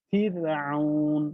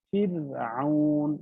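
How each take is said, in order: Both takes have the same delivery.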